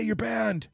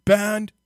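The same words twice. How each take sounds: First: Big Bear voice. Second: Loud Big Bear. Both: Retold or imitated. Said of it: "sound like you're running out of breath".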